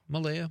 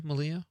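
First: Malaya said muh-LAY-uh; trying a pronunciation. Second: Malia said muh-LEE-uh; alternative pronunciation. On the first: Host checking a texter's name with co-host, Malaya as muh-LAY-uh. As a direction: try "Malaya" with a LAY in the middle, questioning. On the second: Host checking a texter's name with co-host, Malia as muh-LEE-uh. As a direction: try "Malia" with a LEE in the middle, questioning. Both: Shown as a demonstration. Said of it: "Or how would you say that".

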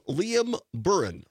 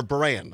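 First: Buran said slowly, ending in an unstressed "-un"; first name pronunciation. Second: Buran with a full "-ann" ending; alternative name pronunciation. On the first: Host unsure of the reporter's name, Buran as "BURR-un". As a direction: say Buran with a weak second vowel, like "burr-un". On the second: Host offering another guess at the name, Buran as "bur-ANN". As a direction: say Buran like "bur-ANN", open final vowel. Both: Real, not acted. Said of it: "not sure how you pronounce it".

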